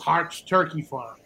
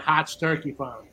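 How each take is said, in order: First: It is said in a standard accent. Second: It is said in the local New England accent.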